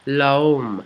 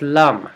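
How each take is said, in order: First: It is read with English spelling-based vowels. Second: It is said the French way, with an uh-like vowel. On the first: The speaker calls it wrong. "It looks like l'homme if you were going to read it through an English-speaking person's mind" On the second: The speaker calls it right. "But it's l'homme, according to my friend who taught me how to say the poem"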